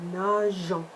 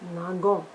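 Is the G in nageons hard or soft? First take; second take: soft; hard. First: The G is soft, like the s in measure. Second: The G is hard, like in go. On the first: The speaker calls it right. "add an E to make it soft again" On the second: The speaker calls it wrong. "That sounds really odd and wrong"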